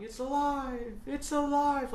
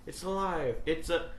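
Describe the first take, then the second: First: High, loud mad scientist cry; Doctor Frankenstein. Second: A milder mad scientist cry; fading mad doctor; weaker Frankenstein. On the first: Mad scientist heard in the background, loud cry. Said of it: "Doctor Frankenstein in the background going". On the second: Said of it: "But it goes". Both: Retold or imitated.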